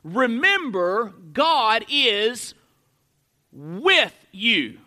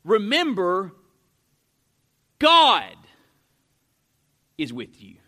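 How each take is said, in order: First: Slow, with a pause before a drawn-out "with"; "God is... WITH you", deliberate and weighty; stress on WITH. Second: "God" loud and alone between long pauses, "is with you" dropped very low; stress on GOD. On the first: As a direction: set "with" apart after a pause and lean on it. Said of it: "emphasize a different word in that sentence". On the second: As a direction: punch "God", then hush the rest. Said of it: "emphasizing a different word". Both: Shown as a demonstration.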